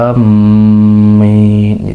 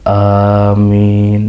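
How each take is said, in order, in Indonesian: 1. Bunyi m diucapkan ganda. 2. Vokal pertama panjang. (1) "dengan tasydid" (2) "seperti wazan yasin"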